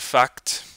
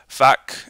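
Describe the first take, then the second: First: The final t sound is fully pronounced. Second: The final t sound is dropped. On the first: "instead of" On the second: "deletion of uh, consonants within consonant clusters"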